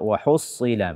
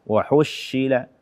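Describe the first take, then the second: First: The s sound is heavy and emphatic. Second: The s sound is replaced by 'sh'. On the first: The speaker calls it right. "bacalah dengan sad" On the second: The speaker calls it wrong. "atau shin"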